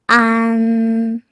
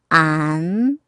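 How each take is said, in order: First: The pitch stays high and level. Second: The pitch rises from middle to high.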